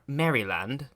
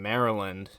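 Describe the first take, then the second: First: It mimics the reporter's odd British-style pronunciation. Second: It uses the local American pronunciation. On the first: Someone else said it this way. The speaker calls it wrong. "He's like, I'm I'm traveling to Mar- Maryland. He kept calling it Maryland" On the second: This is how locals say it. The speaker calls it right. "like that's what we would call it"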